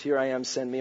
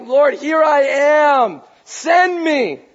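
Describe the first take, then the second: First: Low, soft, understated delivery; subdued quote. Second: High, loud, drawn-out plea; worshipful crying out. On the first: Preacher showing where stories get cut off, subdued. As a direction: say it quietly, without any fervour. Quoting the cut-off story soberly. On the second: Isaiah bowed down before the Lord, crying out loudly. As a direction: call out slowly to heaven with full force. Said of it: "he's crying and he's worshiping the Lord". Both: Acted.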